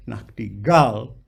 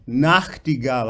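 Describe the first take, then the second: First: "Nachtigall" slowly, weight wrongly on the last syllable, "gall"; stress on GALL. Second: "Nachtigall" with the first syllable, "Nacht", leading; stress on NACHT. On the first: Coach showing the composer's misplaced stress, "Nachtigall" heavy on "gall". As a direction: lean on "gall" at the end of "Nachtigall". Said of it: "they write against the proper pronunciation". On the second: Coach correcting singer, "Nachtigall" stressed on "Nacht". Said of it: "I need to hear the Nacht". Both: Shown as a demonstration.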